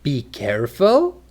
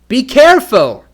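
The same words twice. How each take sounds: First: It is said like a question. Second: It is said like an urgent exclamation. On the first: The speaker asks whether to be careful. "For a question" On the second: The speaker urgently grabs the listener's attention. "For an exclamation"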